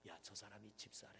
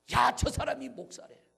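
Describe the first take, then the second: First: Low, soft murmur about someone; acted low-voiced tattling; hushed gossip. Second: High, loud mock gossip; acted loud, incredulous outburst; outraged exclamation. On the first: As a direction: pass it on quietly, like church gossip. Church members gossiping about each other. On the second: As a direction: cry it out as the scandalous climax. Gossip climaxes on the pastor.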